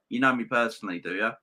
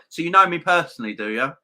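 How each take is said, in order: First: Said in the usual way. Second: Higher, louder and fast, squaring up; indignant challenge. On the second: Real, not acted. Streamer to insulting commenter, loud indignant challenge. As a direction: throw the question back hard at him.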